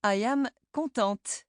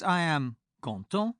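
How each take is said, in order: First: Contente with the final t sounded; feminine contente. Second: Content ending in the nasal vowel, no t; masculine content. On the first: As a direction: finish contente on a clear t. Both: Shown as a demonstration.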